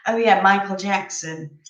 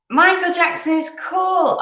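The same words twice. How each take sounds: First: Said in the usual way. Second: Much higher and louder, gushing; excited. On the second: Real, not acted. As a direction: read the comment out like a thrilled fan. Reading a viewer's comment out.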